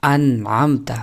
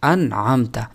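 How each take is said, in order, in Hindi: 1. n ध्वनि स्पष्ट और साफ़ तौर पर उच्चारित होती है। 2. n ध्वनि स्पष्ट और साफ़ तौर पर उच्चारित होती है।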